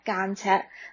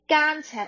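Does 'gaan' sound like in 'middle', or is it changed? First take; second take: changed; like middle. First: The first syllable has a changed sound. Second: The first syllable keeps the sound of 'middle'. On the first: The speaker calls it right. "我们会说干柴干柴" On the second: The speaker calls it wrong. "可是我们不会说干柴"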